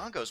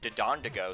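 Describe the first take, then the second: First: The name is said with three syllables. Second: The name is said with an extra fourth syllable. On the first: The speaker calls it right. "I'm actually calling them the Dodongos" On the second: The speaker calls it wrong. "I normally call them Dodondogos, because I'm an idiot"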